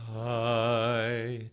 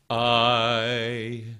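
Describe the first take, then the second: First: The word starts smoothly without a glottal catch. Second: The word starts with a sharp glottal catch. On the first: "If I'm releasing without a uh uh uh without that glottal stop" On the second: "If I if I release it with a glottal stop"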